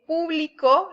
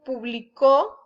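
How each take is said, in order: First: The stress is on the first syllable. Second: The stress is on the last syllable. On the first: The audience. "lleva acento en la, en la U" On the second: He or she published. "es en pasado"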